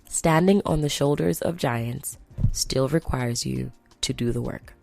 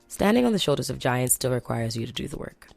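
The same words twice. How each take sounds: First: The sentence is spoken more slowly. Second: The sentence is spoken quickly. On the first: The speaker calls it right. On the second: The speaker calls it wrong.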